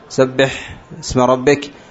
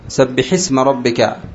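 First: The vowel after the ḥ is barely pronounced. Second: The vowel after the ḥ is clearly pronounced. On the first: The speaker calls it wrong. "لا يخلص كسرة الحاء" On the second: The speaker calls it right. "فكسرت الحاء، سبحي"

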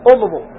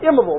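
First: The word begins with a vowel other than 'i'. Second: The word begins with an 'i' vowel. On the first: The speaker calls it wrong. "ما تقول امضوا" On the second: The speaker calls it right. "فإنها تكون بالكسر ... تقول امضوا"

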